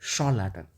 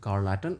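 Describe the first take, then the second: First: The word begins with a sh sound. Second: The word begins with a k sound. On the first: The speaker calls it right. "इसको आप बोलेंगे शॉल लैटन" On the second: The speaker calls it wrong. "ना तो आप इसको बोलेंगे कार्ल लैटन"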